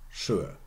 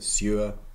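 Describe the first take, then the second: First: The word begins with an sh sound. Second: The word begins with a plain s sound. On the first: This is the later form after the sound change. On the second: This is the older form before the sound change.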